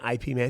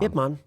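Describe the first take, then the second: First: The first part is spelled out as two letters. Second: The first part is said as one syllable. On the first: The speaker calls it wrong. "I first started out by saying I P Man" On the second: The speaker calls it right. "That's actually how you say it"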